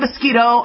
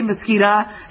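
First: The word ends with an 'o' sound. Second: The word ends with an 'a' sound. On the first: This is how the other person says it. The speaker calls it right. "You say mosquito" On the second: This is how the speaker says it. The speaker calls it wrong. "I say mosquita"

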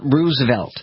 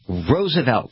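First: The first syllable does not sound like 'rose'. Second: The first syllable sounds like the word 'rose'. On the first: The speaker calls it wrong. "It is not Roosevelt" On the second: The speaker calls it right. "It is Roosevelt, like Rose"

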